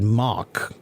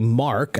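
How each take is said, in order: First: The R is dropped, leaving only an ah vowel. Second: The vowel is followed by a clear R sound. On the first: The speaker calls it wrong. "I said Mock" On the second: The speaker calls it right. "I didn't say Mark"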